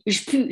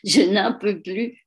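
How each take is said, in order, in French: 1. La phrase est réduite à deux syllabes courtes. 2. Chaque syllabe de la phrase est bien prononcée.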